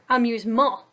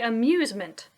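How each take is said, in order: First: The stress is on the third syllable. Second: The stress is on the second syllable. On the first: The speaker calls it wrong. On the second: The speaker calls it right.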